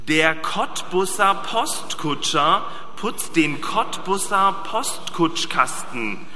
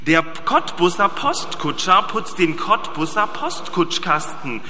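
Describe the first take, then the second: First: It is read at a slow, easy pace. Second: It is read at a faster pace. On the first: "das ist ja einfach in der Geschwindigkeit" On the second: "Wir reden schneller. Ich zu schnell, aber ein bisschen schneller"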